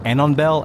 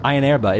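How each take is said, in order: First: The word begins with an 'a-non' sound. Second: The word begins with an 'eye' sound. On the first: The speaker calls it wrong. "I kind of read it as" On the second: The speaker calls it right. "He pointed out that it's pronounced"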